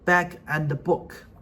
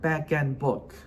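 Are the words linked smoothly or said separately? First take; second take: separate; linked. First: The words are said separately, not linked. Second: The words run together smoothly, linked. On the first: The speaker calls it wrong. "They will say" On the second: The speaker calls it right. "do the linking like back and book"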